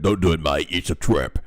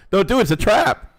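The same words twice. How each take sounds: First: Low gruff orc warning. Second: Loud, high, laughing warning; excited warning. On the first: Acted. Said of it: "be read in an orc voice". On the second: Real, not acted. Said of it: "Oh, I mean, no, let me say".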